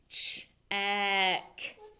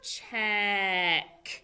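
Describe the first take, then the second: First: The word is said at a slower pace. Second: The word is said at a faster pace.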